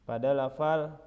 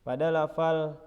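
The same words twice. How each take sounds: The two takes are said the same way.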